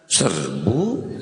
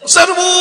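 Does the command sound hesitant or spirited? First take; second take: hesitant; spirited. First: It is said in a hesitant, questioning tone. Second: It is shouted in a spirited, forceful tone. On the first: The soldiers hold back. "Ganti nada. ... Sing harulang eta tentara tadi" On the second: The soldiers charge eagerly. "Pasti semangat"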